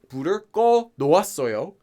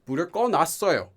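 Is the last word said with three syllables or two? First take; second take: three; two. First: The last word is said in full, three syllables. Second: The last word is squeezed into two quick syllables. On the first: The speaker calls it wrong. "They would not say" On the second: The speaker calls it right. "They would just say"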